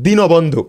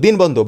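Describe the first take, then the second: First: দীনবন্ধু as "di-no-bon-dhu"; correct pronunciation. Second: দিন বন্ধু as "din bondhu", no vowel after n; everyday pronunciation. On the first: Teacher answering how it is pronounced, দীনবন্ধু as dino-bondhu. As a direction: add a clear o after the n in দীনবন্ধু. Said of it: "but উচ্চারণ কি হবে?". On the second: Teacher quoting the spelling-based form, দিন বন্ধু as din-bondhu. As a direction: close দিন on the n before বন্ধু. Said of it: "আমরা দিন বন্ধু". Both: Shown as a demonstration.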